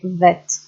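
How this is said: The word starts with a V-like sound.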